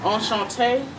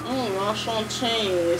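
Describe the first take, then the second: First: "Enchanté." said in plain schoolbook French, no accent. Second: Slow, hammed-up French accent on "Mm, enchanté,"; mock French accent. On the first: Gamer showing viewers her only French words, "Enchanté." said plainly. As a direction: say "Enchanté." like a French-class beginner. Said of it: "all I know how to say is". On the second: Gamer mocking what she can't do, a slow, hammed-up French accent. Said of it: "the French accent, I can't do it". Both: Shown as a demonstration.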